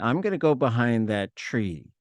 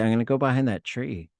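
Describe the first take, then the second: First: It is said in a knowing, suggestive way. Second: It is said in a plain, literal way. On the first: The speaker means going to relieve themselves there. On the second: The speaker simply means going behind the tree.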